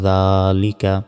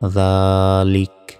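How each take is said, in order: First: The word ends with a final vowel. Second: The word ends on a consonant, vowel dropped. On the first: The reading continues without stopping. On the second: The reader stops on this word.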